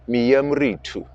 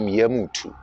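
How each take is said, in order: First: The middle syllable 'ri' is fully pronounced. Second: The middle syllable 'ri' is left out. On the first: "the actual way of s- writing it down and saying it is miyamuritu" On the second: "usually people don't put the re part"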